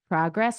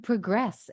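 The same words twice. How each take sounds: First: The stress is on the first syllable. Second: The stress is on the second syllable. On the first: It is a noun. "the ones that have emphasis on the first syllable" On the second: It is a verb. "the emphasis on the second syllable are verbs"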